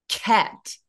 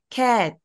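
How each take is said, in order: First: The first consonant is held, then released forcefully. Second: The first consonant is released plainly. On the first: The speaker calls it right. "앞에 윽이 있다고 생각하고 cat" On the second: The speaker calls it wrong. "그냥 cat"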